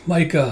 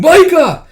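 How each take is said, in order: First: Said in the usual way. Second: Very high, piercingly loud cry; waking scream. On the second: Acted. Tuya waking from the nightmare, screaming. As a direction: scream the name out.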